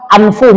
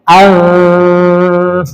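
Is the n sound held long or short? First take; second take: short; long. First: The n sound is short and clear. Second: The n sound is held long into the f. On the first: The speaker calls it wrong. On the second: The speaker calls it right.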